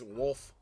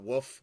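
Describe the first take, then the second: First: The name is said with a clear L sound. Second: The name is said without any L sound. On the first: The speaker calls it right. "I do know his name is Wolf" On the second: The speaker calls it wrong. "it was sounding like Woof"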